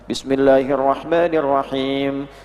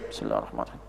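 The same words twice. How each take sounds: First: It is recited clearly out loud. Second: It is recited quietly under the breath.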